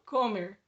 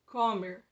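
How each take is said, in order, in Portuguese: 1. A tônica está na primeira sílaba. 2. A tônica está na primeira sílaba.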